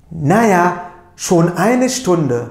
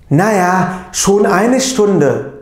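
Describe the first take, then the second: First: Slow, clear model reading of "schon eine Stunde"; careful German pronunciation. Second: Slow, loud model reading of "schon eine Stunde"; careful German pronunciation. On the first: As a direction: repeat "schon eine Stunde" slowly for learners to copy. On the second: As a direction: stretch "schon eine Stunde" out clearly for learners. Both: Shown as a demonstration. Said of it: "doğru telaffuza bir dikkat edelim".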